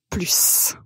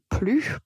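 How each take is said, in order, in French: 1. Le S final se prononce. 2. Le S final est muet. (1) "on va prononcer la lettre S" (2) "tout simplement comme plus"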